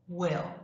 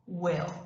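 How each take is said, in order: First: The vowel is open, close to an 'eh' sound. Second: The same.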